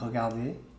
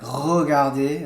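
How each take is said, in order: First: The R sound is light and barely there. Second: The R sound is strong and heavy. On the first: The speaker calls it right. "it's like mm. regarder" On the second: The speaker calls it wrong. "Not like regarder"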